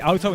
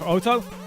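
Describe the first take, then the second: First: It is said with a German-like accent. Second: It is said with an English accent. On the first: "I've been Germanized enough to uh, say auto" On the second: "instead of auto"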